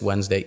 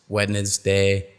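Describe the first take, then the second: First: One syllable is dropped from the word. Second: Every syllable is pronounced fully. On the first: The speaker calls it right. "you must drop the syllable" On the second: The speaker calls it wrong. "would sound weird if you said"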